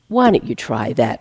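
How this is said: It is said in an impatient, exasperated tone. The idea is dismissed as a hopeless last resort. "completely reshaping the tone of his voice"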